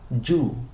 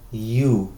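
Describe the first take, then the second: First: It begins with a hard j-like consonant. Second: It begins with a soft ee glide. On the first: The speaker calls it wrong. "la pronunciación no es yu" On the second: The speaker calls it right. "con la vocal i y posteriormente la vocal u"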